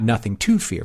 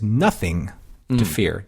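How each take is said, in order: First: The stress falls on the word fear. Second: The stress falls on the word nothing. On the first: There is no reason to be afraid. "not nothing to fear" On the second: Fear itself has no substance. "let's put the emphasis on nothing to fear"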